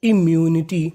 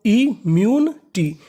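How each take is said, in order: First: Said in the usual way. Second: immunity drawn out slowly, im-myu-ni-ti spaced apart; slow syllable by syllable. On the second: Shown as a demonstration. Teacher sounding out immunity slowly to students. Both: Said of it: "तो meaning".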